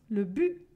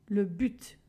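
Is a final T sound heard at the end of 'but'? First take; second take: no; yes. First: The final T sound is silent. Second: The final T sound is pronounced. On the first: This is how it is said in Quebec. "Au Québec, par exemple, on ne le prononce pas" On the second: This is how it is said in southern France. "Dans le sud de la France, on prononce le T"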